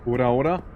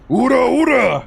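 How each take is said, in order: First: It is said weakly, with little force. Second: It is said forcefully, with much energy.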